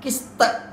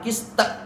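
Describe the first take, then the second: First: The final ta echoes with a light e-vowel. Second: The same.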